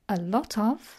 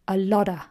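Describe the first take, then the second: First: Each word is said separately and fully. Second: The final f drops, giving lotta. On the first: "We can say a lot of" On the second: "Or even more unstressed, a lotta"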